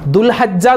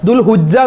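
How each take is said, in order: First: An 'a' vowel follows the 'h'. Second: A 'u' vowel follows the 'h'. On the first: "അതൊക്കെ തെറ്റാണ്" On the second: "അതൊക്കെ തെറ്റാണ്"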